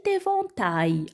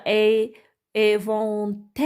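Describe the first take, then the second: First: ÉVENTAIL ending in "ta-y", no L heard; correct reading. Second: ÉVENTAIL misread slowly as "éventelle"; wrong reading. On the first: Teacher repeats the phrase correctly, éventail ending in Y. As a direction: finish ÉVENTAIL on a gliding Y. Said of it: "Je répète comment on a prononcé". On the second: Teacher tests children with a wrong reading, ending in "-elle". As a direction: end ÉVENTAIL on an open E and held L. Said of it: "non, c'est pas comme ça". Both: Shown as a demonstration.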